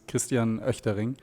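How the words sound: The name is said with German pronunciation. "the German pronunciation is"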